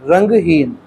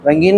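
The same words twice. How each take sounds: First: रंगहीन split into रंग and हीन, with the ह sounded; रंगहीन with an audible H before the long ee; clearly separated syllables. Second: रंगीन run together as rangeen, with no H; रंगीन as one joined word, no breath before ee; run-together pronunciation. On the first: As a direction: say रंगहीन slowly in two parts, voicing the H. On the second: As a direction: say रंगीन with the G going straight into the long ee. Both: Shown as a demonstration. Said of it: "रंगीन नहीं".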